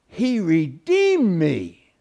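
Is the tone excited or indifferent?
excited. It is said with awe and excitement. The speaker is thrilled and full of wonder. The speaker calls it right. "I hope that's the latter in your lives"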